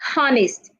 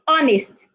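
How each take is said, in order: First: The word starts with an H sound. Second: The word starts without an H sound. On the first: The speaker calls it wrong. "Don't say honest" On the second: The speaker calls it right. "The H is silent. Say honest"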